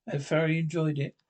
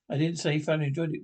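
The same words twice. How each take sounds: First: Said in the usual way. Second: Rattled off quickly, correcting; brisk indignant correction; fast correction. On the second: Real, not acted. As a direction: snap back fast to set the record straight.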